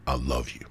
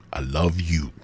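First: Said in the usual way. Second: Whispered. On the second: Shown as a demonstration. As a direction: whisper "I love you" with no voice.

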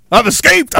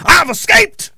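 First: Said in the usual way. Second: "I've escaped" sung out high with a rising, hammed-up crow; mock gloating taunt. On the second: Ranter taunting trapped viewers, high mock gloating crow.

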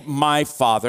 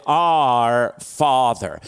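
First: "My" stressed with a falling tune. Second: "Our" slow, long and falling; stress on our. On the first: Pastor contrasting the wrong word for his church, stressing "My". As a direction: push on "My" in "My Father". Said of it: "he didn't say". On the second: Pastor stressing "Our" to his church, slow and weighty. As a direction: lean hard on "Our" in "Our Father". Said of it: "he didn't say, "My Father". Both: Shown as a demonstration.

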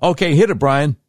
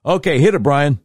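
First: Loud cue. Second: Calls the cue out high and loud. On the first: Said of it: "Let me try it again". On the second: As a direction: shout the cue to the producer. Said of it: "No, that's, that's not it". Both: Real, not acted.

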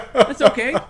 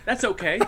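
First: "That's okay" said louder through a laugh. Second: Said in the usual way. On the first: Real, not acted. Joking about necrophilia off screen.

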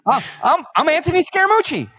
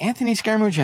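First: High, loud mocking imitation of a guest; flustered guest. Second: Higher-pitched mock echo of the name; feigned puzzlement. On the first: Guest introduces himself to the host, flustered. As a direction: stammer into an indignant self-introduction, pitched way up. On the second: Host pretends not to know the guest, feigned puzzlement. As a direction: repeat it as if it means nothing to you.

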